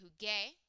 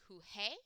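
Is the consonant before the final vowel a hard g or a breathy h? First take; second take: hard g; breathy h. First: The consonant before the final vowel is a hard g. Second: The consonant before the final vowel is a breathy h. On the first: The speaker calls it right. "we have to keep the g sound" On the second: The speaker calls it wrong. "If we wrote it like this, it would be juge"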